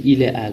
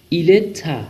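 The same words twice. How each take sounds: First: ایله ا with the t left unsounded, ile a; no liaison. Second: ایله تا linked into one, ile-ta; liaison on t. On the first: Teacher shows learners the form without liaison. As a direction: keep the words apart, ile then a. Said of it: "نگفتیم". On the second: Teacher shows learners the linked form. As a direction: carry the t over to join the words. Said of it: "گفتیم". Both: Shown as a demonstration.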